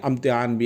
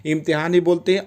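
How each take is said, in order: First: इम्तिहान with an initial 'uh'; short 'a' at the start of इम्तिहान; 'a' variant. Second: इम्तिहान with an initial 'ih'; 'i' variant. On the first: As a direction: begin इम्तिहान on 'a', as amtihan. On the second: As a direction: begin इम्तिहान on 'i', as imtihan. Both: Shown as a demonstration. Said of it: "थोड़ा सा आ और ई का फ़र्क आता है".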